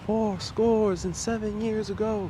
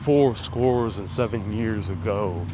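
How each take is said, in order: First: It is said in a high-pitched voice. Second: It is said in a deep, low voice. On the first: This is closer to how it really sounded. The speaker calls it right. "it was more like" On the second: This is how people usually imagine it. The speaker calls it wrong. "people kind of portray him with that deep voice"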